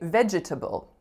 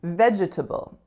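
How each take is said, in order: First: It uses a rarer, dictionary-listed variant pronunciation. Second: It uses a rarer, dictionary-listed variant pronunciation.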